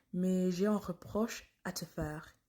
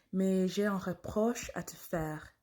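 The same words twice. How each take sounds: The two takes are said the same way.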